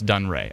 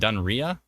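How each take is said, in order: First: The name ends with a 'ray' sound. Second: The name ends with a 'ree-ah' sound. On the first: The speaker calls it right. "it's pronounced Dunray" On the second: The speaker calls it wrong. "I pronounced that location wrong"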